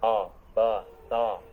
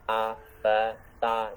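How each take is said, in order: First: The vowels sound even thicker and heavier. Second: The vowels sound thick and heavy. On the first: "lebih tebal lagi" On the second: "jangan sampai tebal"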